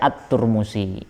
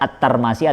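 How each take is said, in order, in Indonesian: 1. Nama itu diucapkan dengan vokal 'u'. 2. Nama itu diucapkan dengan vokal 'a'. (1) "ada yang baca At-Turmusi" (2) "ada yang baca At-Tarmasi"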